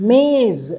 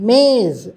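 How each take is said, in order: The two takes are said the same way.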